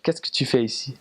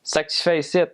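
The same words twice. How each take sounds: First: Very proper French from France; prim standard French from France. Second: High, slurred-together Quebec French; Quebec accent pitched up high; Quebecois French. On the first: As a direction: say it in correct, textbook French of France. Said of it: "Very, very proper, like". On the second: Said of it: "it sounds more like". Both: Shown as a demonstration.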